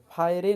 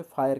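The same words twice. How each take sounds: First: फायरे with an ए added at the end; wrong final e. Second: फायर ending on र, no vowel after it; silent final e. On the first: Teacher shows learners the wrong way to read fire. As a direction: say फायरे, sounding the silent e. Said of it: "फायरे नहीं कह रहे हैं". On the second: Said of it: "इसे फायर कह रहे हैं". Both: Shown as a demonstration.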